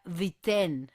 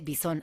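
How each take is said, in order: First: The name sounds like 'BEE-ten'. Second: The name sounds like 'BEE-son'. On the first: The speaker calls it right. "Según Gemini se pronuncia Viten" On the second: The speaker calls it wrong. "así tampoco se pronuncia"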